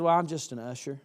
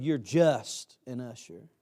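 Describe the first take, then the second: First: Said in the usual way. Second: JUST drawn out slow and heavy; stress on JUST. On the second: Retold or imitated. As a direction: lean hard on "just", stretching it out. Pointedly throws back the word just.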